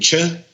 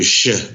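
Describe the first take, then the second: First: The name begins with a 'ch' sound. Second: The name begins with a 'sh' sound. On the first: "some will do Che" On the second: "some will do Sh, like chocolat"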